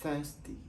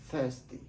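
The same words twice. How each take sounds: First: "thirsty" with th and stress on thirs; English thirsty. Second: "Thirsty" repeated, stress on thirs; English thirsty. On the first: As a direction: model "thirsty" softly for the class. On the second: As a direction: say "Thirsty" again as the model. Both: Shown as a demonstration. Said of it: "les prononce comme".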